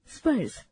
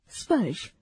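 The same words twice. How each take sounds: First: स्पर्श ending in s instead of sh; wrong pronunciation. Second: स्पर्श ending in a clear sh; correct pronunciation. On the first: Teacher demonstrates the wrong स्पर्श ending in s. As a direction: end स्पर्श on a plain s. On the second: Teacher models the correct स्पर्श ending in sh. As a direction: finish स्पर्श on sh. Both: Shown as a demonstration. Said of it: "अशुद्ध, शुद्ध".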